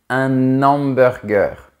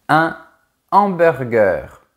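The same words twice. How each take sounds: First: The n is linked to hamburger. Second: The n is not linked to hamburger. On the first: The speaker calls it wrong. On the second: The speaker calls it right.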